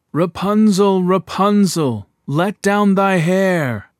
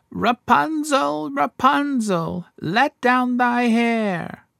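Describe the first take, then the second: First: Loud, slow call up to the tower; prince calling out. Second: High, slow witch call up the tower; enchantress calling. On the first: King's son copies the witch's call, loud but in his own voice. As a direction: call up to her, loud and drawn out. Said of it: "he went to the tower and cried". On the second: Enchantress calls up to Rapunzel in her tower, high slow witch voice. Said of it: "he heard how she cried". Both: A narrator's reading.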